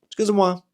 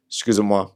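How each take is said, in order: First: "Excusez-moi" lilted much higher, bouncing on moi; friendly sing-song. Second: "Excusez-moi" said flat and level, no lilt; passive. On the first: Showing listeners the friendly French way, pitched high. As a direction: chirp "Excusez-moi" like an apology. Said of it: "something about the rhythm of". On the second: Trying to make the French phrase sound passive-aggressive. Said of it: "Excusez-moi sounding passive". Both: Shown as a demonstration.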